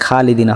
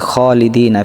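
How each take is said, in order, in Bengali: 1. প্রথম kh ধ্বনিটি হালকা, বাংলা kha-এর মতো। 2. প্রথম kh ধ্বনিটি ভারী এবং গলা থেকে আসে। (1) "এটা খালিদিনা হবে না" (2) "খ একটু মোটা হবে"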